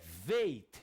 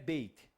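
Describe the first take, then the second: First: The word begins with a V sound. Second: The word begins with a B sound. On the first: The letter is written without a dot inside. "Sem o ponto não é mais bait, é veit" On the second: The letter is written with a dot inside. "com ponto é bait, representa o B"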